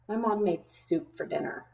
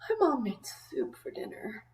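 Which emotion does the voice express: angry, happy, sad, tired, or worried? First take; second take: angry; tired. First: The voice sounds angry and annoyed. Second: The voice sounds tired and sleepy. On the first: The person is displeased about the soup. "If I was angry about it" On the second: The person just woke up and wants no food. "You could read it in a tired way"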